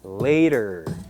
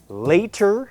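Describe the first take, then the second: First: The middle t is a soft, quick flap. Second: The middle t is a clear, full t sound. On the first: "and then with the T that is" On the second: "first with the T that you might expect"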